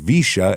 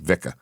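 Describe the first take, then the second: First: The middle consonant is a soft sh sound. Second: The middle consonant is a hard k sound. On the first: This is how it is usually said. "is how it's said a lot of the times" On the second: This is how it was said locally. "Give it a hard C"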